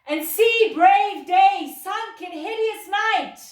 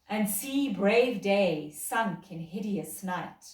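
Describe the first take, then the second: First: It is called out loudly across a distance. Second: It is spoken at a normal, projected level.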